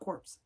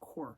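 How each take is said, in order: First: The word ends with a pronounced 'ps' sound. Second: The word ends with no 'ps' sound. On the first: The speaker calls it wrong. "I always say corpse. It's not corpse" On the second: The speaker calls it right. "It's core"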